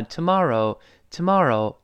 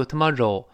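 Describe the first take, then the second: First: "tomorrow" with a curled English r. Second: "tomorrow" ending in Chinese rou, meat; wrong reading. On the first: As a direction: curl the tongue on the r in "tomorrow". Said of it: "那个字母R还是要勾舌的". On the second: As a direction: mispronounce the end of "tomorrow" as Mandarin 肉. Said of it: "不是卖肉的肉". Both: Shown as a demonstration.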